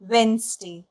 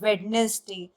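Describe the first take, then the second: First: The middle d is silent, two syllables. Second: The middle d and extra syllable are pronounced. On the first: The speaker calls it right. "इसमें डी silent होता है" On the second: The speaker calls it wrong. "बहुत लोग ये गलती कर जाते हैं"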